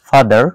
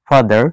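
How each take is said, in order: The two takes are said the same way.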